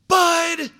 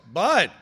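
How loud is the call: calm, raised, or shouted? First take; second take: shouted; raised. First: The name is shouted as loudly as possible. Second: The name is called with a raised voice. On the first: The speaker is trying to frighten the child into stopping. "as loud as I can" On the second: The speaker is getting more urgent. "I raise my voice"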